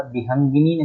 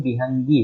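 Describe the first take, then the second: First: विहंगिनी ending in -gini; wrong -ini ending. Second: विहंगी ending directly in -gee; correct -ee ending. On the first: Teacher naming the error, विहंगिनी with -ini ending. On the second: Teacher giving the correct word, विहंगी ending in -gee. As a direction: end विहंगी on long gee, no ni. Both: Shown as a demonstration. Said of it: "विहंगिनी नहीं".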